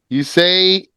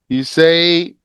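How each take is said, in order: No difference in how they are said.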